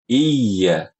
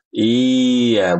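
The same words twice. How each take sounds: First: The 'ya' is pushed crisply from the tongue. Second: The 'ya' swings loosely without a crisp push. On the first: The speaker calls it right. "tapi iya, iya dari lidah" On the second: The speaker calls it wrong. "iya bukan"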